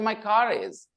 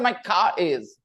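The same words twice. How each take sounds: First: The R links car to is. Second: The R before is is silent. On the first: The speaker calls it right. "They will say the R sound" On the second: The speaker calls it wrong. "They will not say my car is"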